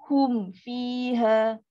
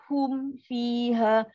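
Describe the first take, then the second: Both takes have the same delivery.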